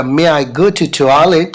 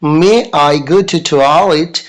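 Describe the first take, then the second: First: Slow, careful student request; slow model request. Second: Very slow, drawn-out repeat; slower model request. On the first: Teacher models the student asking for the toilet. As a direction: stretch it out for repetition. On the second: Teacher repeats the toilet request even slower. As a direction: stretch every word even more. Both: Shown as a demonstration. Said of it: "आप बोलिएगा".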